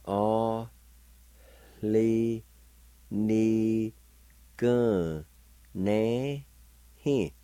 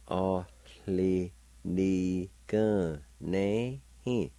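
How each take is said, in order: First: Teacher sounding out A li ni gun na hi; syllable by syllable. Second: A li Ni gun ne hin drawn out very slowly; slow teaching pace on A li Ni gun ne hin. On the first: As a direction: separate A li ni gun na hi clearly. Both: Shown as a demonstration. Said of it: "faint H sound like this".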